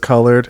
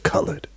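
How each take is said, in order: First: The word is said in a plain standard way. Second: The word is said in an old dialect style. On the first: This is how she does not say it. "she never says colored" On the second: This is how she actually says it. "she says colored"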